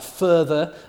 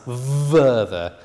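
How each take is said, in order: First: The word begins with a voiceless f sound. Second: The word begins with a voiced v sound. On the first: "the fricative at the beginning of a word like further" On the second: "they'll pronounce it as verther ... Exaggerating a bit there"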